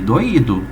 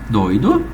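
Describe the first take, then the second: First: The 'o' and 'i' are split into two syllables. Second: The 'oi' is said as one syllable. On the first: "tu transformou num hiato" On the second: "tu transformou num ditongo"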